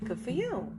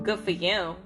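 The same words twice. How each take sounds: First: It is said warmly, sounding genuinely happy. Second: It is said in a flat, dismissive way. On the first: The speaker is truly glad about the news. "Like, "Oh, I'm so happy for you."" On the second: The speaker does not really care about the news. "It wasn't good for you"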